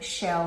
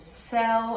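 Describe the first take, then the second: First: The word starts with an sh sound. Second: The word starts with an s sound. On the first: The speaker calls it right. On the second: The speaker calls it wrong.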